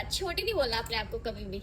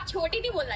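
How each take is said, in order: First: Said in the usual way. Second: नहीं punched, the whole line louder; stress on नहीं. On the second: Shown as a demonstration. Telling her friend never to call herself short, नहीं stressed. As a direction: hit नहीं hard and bossy.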